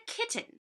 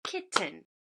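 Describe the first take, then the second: First: Said in the usual way. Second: KITTEN split into two separate beats, kit, ten; clapped syllables. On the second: Shown as a demonstration. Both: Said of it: "clap it".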